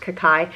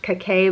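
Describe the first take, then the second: First: Kakai said as "kuh-KYE"; believed correct pronunciation. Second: Kakai said as "kuh-KAY"; mispronounced as spelled. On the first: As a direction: end Kakai on an "eye" sound, rhyming with sky. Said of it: "I had read that it's pronounced". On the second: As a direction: end Kakai on an "ay" sound, rhyming with day. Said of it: "Looks like it should be pronounced". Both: Shown as a demonstration.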